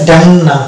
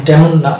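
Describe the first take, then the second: No difference in how they are said.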